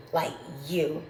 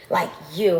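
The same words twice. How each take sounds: First: Said in the usual way. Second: Jab the word "you" at them; stress on you. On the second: Real, not acted. Repeats "like, you" with force.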